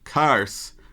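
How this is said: The word sounds open and crisp, with teeth showing. The speaker calls it right.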